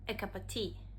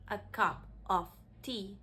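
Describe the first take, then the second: First: The word 'of' is reduced to a linked schwa. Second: The word 'of' keeps a full, separate vowel. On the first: "you can link words with this sound" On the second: "instead of saying"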